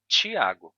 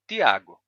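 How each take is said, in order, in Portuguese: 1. Começa com um som de t parecido com ch. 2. Começa com um som de t simples. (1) "terminou surgindo a variante Tiago, com som de ti" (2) "você tinha originalmente o som de ti"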